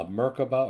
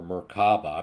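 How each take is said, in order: First: "Merkaba" with the first syllable stressed; first pronunciation. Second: "Merkaba" with the middle syllable stressed; alternative pronunciation. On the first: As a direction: say "Merkaba" as MER-kuh-buh. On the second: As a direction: say "Merkaba" as mer-KAH-buh, drawing out KAH. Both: Shown as a demonstration. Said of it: "not sure exactly how to pronounce it".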